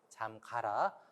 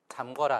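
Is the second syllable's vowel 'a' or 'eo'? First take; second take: a; eo. First: The second syllable has the vowel a. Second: The second syllable has the vowel eo. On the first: The speaker calls it right. "잠가라 꼭 조심해서 사용하시기 바랍니다" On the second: The speaker calls it wrong. "잠거라 아니고"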